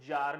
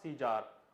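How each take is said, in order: First: One syllable, starting with a z sound. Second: Begins with see, ending in an ar sound. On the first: The speaker calls it right. "the prounciation is जार" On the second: The speaker calls it wrong. "Not सीजार"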